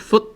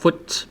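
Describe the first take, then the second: First: The word ends in a glottal stop. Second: The final t is fully released. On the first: "instead of pronouncing the T, well, we have a glottal stop" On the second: "if you pronounce it as uh, an English word"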